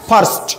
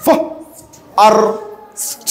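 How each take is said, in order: First: ফার্স্ট as one short syllable; blended word. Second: ফ, আর, স্ট as three separate sounds; sounded out. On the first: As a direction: say ফার্স্ট whole, no break. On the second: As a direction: pause after ফ and আর, then স্ট. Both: Shown as a demonstration. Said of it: "উচ্চারণ কেমন?".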